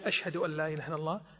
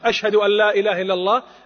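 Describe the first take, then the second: First: The phrase is said in a quiet, low voice. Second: The phrase is said in a loud, raised voice. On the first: "بصوت منخفت أو خافت منخفض" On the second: "ثم يرفع"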